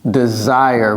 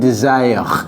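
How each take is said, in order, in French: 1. Il a une prononciation à l'anglaise. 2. Il a une prononciation à la française. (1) "Vous voyez comment je prononce ça?" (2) "J'ai pas dit desire"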